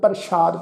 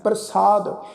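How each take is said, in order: First: The middle consonant is an sh sound. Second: The middle consonant is a plain s sound. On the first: The speaker calls it wrong. "ਸੱਸੇ ਪੈਰ ਬਿੰਦੀ ਦੇ ਨਾਲ ਕਰਦੇ ਹੋਣਗੇ" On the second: The speaker calls it right. "ਸੱਸੇ ਨੂੰ ਕੰਨਾ"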